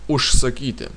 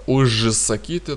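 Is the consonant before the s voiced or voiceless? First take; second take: voiceless; voiced. First: The consonant before s is a voiceless sh. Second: The consonant before s is a voiced zh. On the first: The speaker calls it right. "поэтому произносим ушсакити" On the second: The speaker calls it wrong. "так не произносить"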